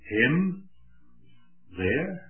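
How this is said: It is said as a question. "or whether you state them as a question"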